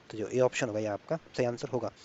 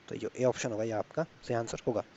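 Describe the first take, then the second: No difference in how they are said.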